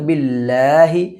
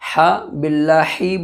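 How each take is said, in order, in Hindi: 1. h एक हल्की आवाज़ है जो सीने से निकलती है। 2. h एक कठोर आवाज़ है जो हलक से निकलती है। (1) "छोटी हा सीने की तरफ से निकलता है" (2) "बोलेंगे तो गलत हो जाएगा"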